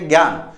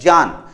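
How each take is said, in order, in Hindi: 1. यह शब्द g ध्वनि से शुरू होता है। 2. यह शब्द j ध्वनि से शुरू होता है। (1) "हम कई बार इसका उच्चारित करते थे ज्ञान" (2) "ये ज होता है, गे नहीं होता"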